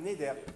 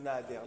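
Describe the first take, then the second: First: The first vowel is an 'e' sound. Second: The first vowel is an open 'a' sound. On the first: The speaker calls it right. "Non, ulcha yishulam neder" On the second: The speaker calls it wrong. "On ne dit pas ulcha yishulam nader"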